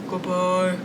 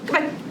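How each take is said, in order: First: It is said in a very deep voice. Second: It is said very fast. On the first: "Let's say goodbye as low as we can" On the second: "Let's say goodbye as fast as we can"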